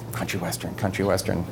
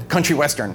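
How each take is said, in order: First: Low, hushed musing; pondering to himself. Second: Said in the usual way. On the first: Retold or imitated. Whistler hunting for a song to suit the president, pondering quietly. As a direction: turn the words over under your breath. Retold thinking to himself after the request.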